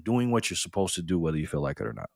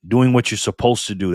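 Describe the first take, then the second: First: Softer, musing echo of the line; quieter repeat. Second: Said in the usual way. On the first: Shown as a demonstration. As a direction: repeat it softly to let it sink in. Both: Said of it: "that's real self-discipline".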